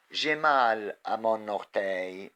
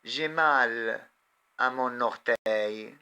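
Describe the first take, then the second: First: Said in the usual way. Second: "J'ai mal" then "à mon orteil" in two chunks with a pause, mal raised and loud; teacher spelling out "J'ai mal à mon orteil" chunk by chunk; slow chunked reading. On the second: Shown as a demonstration.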